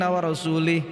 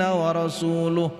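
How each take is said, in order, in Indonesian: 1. Kata terakhir diakhiri dengan vokal i. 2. Kata terakhir diakhiri dengan vokal u. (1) "bacaan yang salah wa rasulih" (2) "kalau dibaca wa rasuluh"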